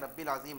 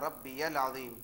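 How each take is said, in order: First: The first word is said without a 'ya' sound. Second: The first word is said with a 'ya' sound. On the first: The speaker calls it wrong. "बहुत से लोग रब्बिल अज़ीम पढ़ते हैं, रब्बिल अज़ीम नहीं" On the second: The speaker calls it right. "सुबहान रब्बियल अज़ीम"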